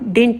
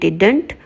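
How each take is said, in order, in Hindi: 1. इस शब्द में दूसरी 'd' ध्वनि छूट जाती है। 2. इस शब्द में दूसरी 'd' ध्वनि बनी रहती है। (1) "बल्कि इसको अब डिंट भी बोलते हैं" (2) "डिड नॉट को बोलेंगे डिडंट"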